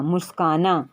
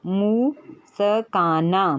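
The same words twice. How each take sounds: First: Said in the usual way. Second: मुस्काना drawn out very slowly, syllable by syllable, मु-स-का-ना; slow spelled-out word. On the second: Shown as a demonstration. Teacher sounding out मुस्काना for a student, very slow, syllable by syllable. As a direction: stretch मुस्काना out, sounding each part for the child. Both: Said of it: "जैसे है".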